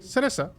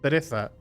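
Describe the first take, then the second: First: It is pronounced with the speaker's local accent. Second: It is pronounced with a mainland Spanish accent. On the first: "we say cereza" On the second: "instead of"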